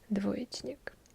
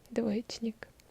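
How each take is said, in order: No difference in how they are said.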